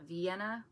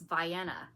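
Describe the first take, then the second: First: It uses the widely known pronunciation. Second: It uses the local Illinois pronunciation. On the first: This is the name of the city in Austria. "instead of Vienna, but it's spelled like Vienna, Austria" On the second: This is how someone local called the town. "I heard somebody call this Vienna"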